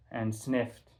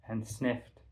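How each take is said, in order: Both takes have the same delivery.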